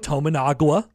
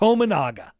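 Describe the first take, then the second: First: The name ends with a 'gwa' sound. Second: The name ends with a plain 'ga' sound. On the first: The speaker calls it wrong. "refer to Keisei Tominaga as the following" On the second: The speaker calls it right. "Tominaga looks exactly how it looks"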